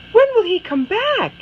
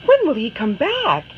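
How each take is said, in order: First: Much higher, pleading question; Anna asks her mother again, pleading; more insistent child. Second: Higher, eager question; Anna pleads with her mother; longing child. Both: Acted. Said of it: "she asks her mother".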